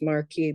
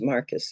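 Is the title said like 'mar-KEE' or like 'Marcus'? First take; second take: mar-KEE; Marcus. First: It is said as mar-KEE. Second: It is said like Marcus. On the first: The speaker calls it wrong. "I know this can't be pronounced Marquis" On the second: The speaker calls it right. "he very kindly told me it was Marcus"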